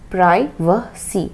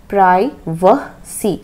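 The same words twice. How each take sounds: First: The first vowel sounds like 'eye' (American). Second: The first vowel sounds like 'eye' (American).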